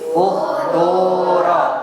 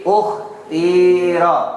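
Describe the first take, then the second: First: The vowel before r is a pure u. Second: The vowel before r is a pure i. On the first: "Yang kedua dibaca doma" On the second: "Yang pertama dibaca kasroh"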